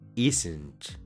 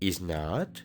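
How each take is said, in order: First: Is and not are joined into one word. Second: Is and not are said as separate words. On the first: The speaker calls it right. "mejor di" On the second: The speaker calls it wrong. "En vez de decir"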